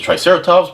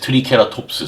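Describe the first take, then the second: First: It is said with an English pronunciation. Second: It is said with a Korean pronunciation. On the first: "in English pronunciation is Triceratops" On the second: "in Korean, it's uh, the pronunciation is Triceratops"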